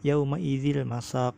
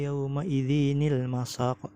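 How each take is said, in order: First: No extra n syllable comes before 'il masaq'. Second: An extra n syllable links into 'il masaq'. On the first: This follows the usual Middle Eastern printed text. "kada pakai nun, cuma dibaca apa boleh aja dibacanya yauma idzil masaq" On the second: This follows the usual Indonesian printed text. "ada nunnya di bawah tuh loh, jadi dibacaannya tuh nil masaq"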